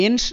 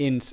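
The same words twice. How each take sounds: First: এন্স ending in a full sh, "ensh"; wrong sh ending. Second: এন্স ending in a clean s, "ens"; correct s ending. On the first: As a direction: say এন্স as "ensh", with a hushing final sound. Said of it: "শয়ের মতো পুরোপুরি হবে এরকম কিন্তু না". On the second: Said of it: "এন্স এরকম". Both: Shown as a demonstration.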